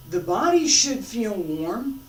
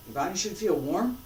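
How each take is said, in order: First: Slow, louder, stressing "body"; emphatic. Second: Said in the usual way. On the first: Shown as a demonstration. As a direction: lean on "The body should feel warm." slowly.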